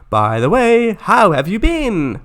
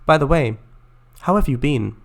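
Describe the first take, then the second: First: It is said with lively, expressive intonation. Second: It is said flat and deadpan.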